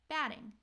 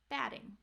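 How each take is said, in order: First: The middle consonant is a quick D-like flap. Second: The middle consonant is a quick D-like flap.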